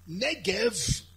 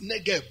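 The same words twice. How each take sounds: First: Negev ending in a V sound, as written; written pronunciation. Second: Negev ending in a hard B sound; spoken pronunciation. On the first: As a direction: say "Negev" with a final V. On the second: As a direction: say "Negev" as "Negeb". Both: Shown as a demonstration. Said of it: "written but pronounced Negev".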